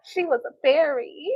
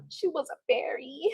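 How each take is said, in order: First: Said in the usual way. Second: Soft, whispery echo; hushed repeat. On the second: Acted. Streamer repeating a quoted line, whispery echo. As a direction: repeat it under the breath, softly.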